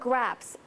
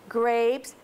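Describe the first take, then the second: First: The vowel is a short A sound. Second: The vowel is a long A sound. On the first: The speaker calls it wrong. "That's the word graps" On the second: The speaker calls it right. "Say the long A sound instead"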